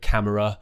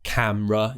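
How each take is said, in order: First: Every syllable of the word is pronounced. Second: A middle sound of the word is dropped. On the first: The speaker calls it wrong. "instead of camera" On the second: The speaker calls it right. "We remove a lot of sounds in British English"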